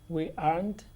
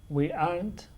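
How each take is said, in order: Both takes have the same delivery.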